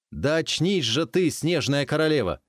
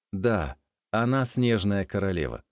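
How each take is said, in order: First: Loud, high urgent call; urgent shout. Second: Said in the usual way. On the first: Acted. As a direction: shout to wake her. Stranger shakes her awake.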